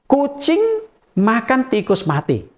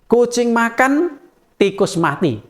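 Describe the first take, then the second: First: There is no pause after makan. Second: There is a pause after makan.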